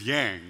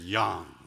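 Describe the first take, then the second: First: The name is said with an English pronunciation. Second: The name is said with its original pronunciation. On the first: "my last name is Yang" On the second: "the proper pronunciation"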